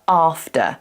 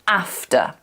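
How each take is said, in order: First: It is said in a modern RP accent. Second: It is said in the speaker's natural accent. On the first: "in a modern R P, it's more common to hear after" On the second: "my natural accent, I want to say after"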